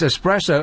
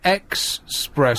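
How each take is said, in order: First: The word begins with an 'ess' sound. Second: The word begins with an 'ex' sound. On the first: The speaker calls it right. "It's espresso" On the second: The speaker calls it wrong. "definitely not expresso"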